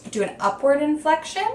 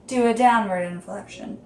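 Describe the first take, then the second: First: "do an upward inflection" climbing high to the end. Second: "do a downward inflection" stepping down in pitch. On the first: Explaining script scoring choices, rising sharply on "upward inflection". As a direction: let the pitch climb through to "inflection". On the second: Explaining script scoring choices, pitch dropping on "downward inflection". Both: Shown as a demonstration.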